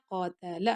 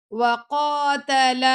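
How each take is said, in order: First: قاتل said as qa-ta-la, all short; short vowels. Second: وَقَاتَلَ with every vowel dragged long; wrongly stretched. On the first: Teacher showing students the fix, قاتل with short vowels. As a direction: keep each syllable of قاتل brief. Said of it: "حرکت ہے نا". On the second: Teacher showing students the mistake, وَقَاتَلَ overlengthened. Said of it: "لمبا لمبا کر کے نہیں پڑھنا". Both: Shown as a demonstration.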